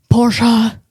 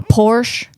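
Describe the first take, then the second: First: "Porsche" said as POR-shah; "Porsche" with an open ah as second syllable; two-syllable Porsche. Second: "Porsche" said as PORSH, no final vowel; "Porsche" without the ah at the end; one-syllable Porsche. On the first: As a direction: correct "Porsche" to end in a full shah. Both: Shown as a demonstration. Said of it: "Sorry, Patrick Dempsey".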